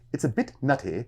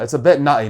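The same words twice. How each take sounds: First: It is said in a posh, upper-class British accent. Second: It is said in a street London accent. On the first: "somebody from like I guess up the, the upper class area of London would say this sentence like this" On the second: "Whereas the people in a summer house top would be like"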